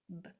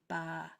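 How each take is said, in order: First: The B is clipped short with no vowel. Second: The B is followed by an uh vowel. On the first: The speaker calls it right. "It's just b, b" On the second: The speaker calls it wrong. "It's not ba, ba. There's no uh"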